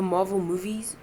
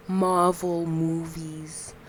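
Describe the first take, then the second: First: Said in the usual way. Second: "Marvel movies" drawn out very slowly; careful enunciation. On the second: Shown as a demonstration. Speaker testing own diction, stretching "Marvel movies" slowly. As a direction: sound out "Marvel movies", each syllable stretched. Repeating words to check own speech.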